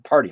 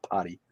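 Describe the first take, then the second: First: "party" with the R clearly sounded. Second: "party" with R dropped, as "potty"; New England "potty". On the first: Streamer corrects themselves, "party" with a clear R. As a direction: say "party" loud, R pronounced. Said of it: "not potty". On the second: Streamer owns up to New England accent, R-less "potty". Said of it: "That's my New England accent". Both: Shown as a demonstration.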